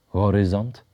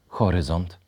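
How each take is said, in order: First: The h sound is voiced. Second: The h sound is voiceless. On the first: The speaker calls it wrong. "W języku ukraińskim wyrazy te są wymawiane z dźwięcznym ch" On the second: The speaker calls it right. "wymawiane z bezdźwięcznym ch"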